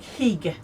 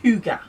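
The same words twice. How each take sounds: First: Hygge said as spelt, with a short i like "higg"; spelling pronunciation. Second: Hygge said as HOO-guh; correct Danish-style pronunciation. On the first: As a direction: read "Hygge" letter by letter-sound, HIG-guh. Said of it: "it's spelt like Hygge". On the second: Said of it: "but it's pronounced Hygge". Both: Shown as a demonstration.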